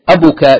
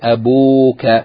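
First: The vowel after the b is short. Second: The vowel after the b is long. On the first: The speaker calls it wrong. "instead of saying abuka" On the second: The speaker calls it right. "you add waw"

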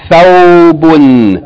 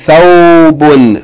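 The two takes are said the same way.

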